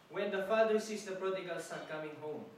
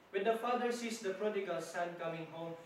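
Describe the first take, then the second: Both takes have the same delivery.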